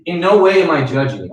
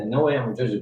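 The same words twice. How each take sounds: First: "no" punched, higher and louder; stress on no. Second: Soft repeat. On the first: Advisor assuring a debt client, hitting "no" hard. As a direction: lean hard on "no", firm and emphatic. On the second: Advisor gently repeating reassurance to a client, softly. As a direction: repeat it softer, "no" only lightly leaned on. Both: Shown as a demonstration. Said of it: "I'll say that".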